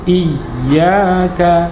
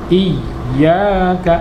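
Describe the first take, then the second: No difference in how they are said.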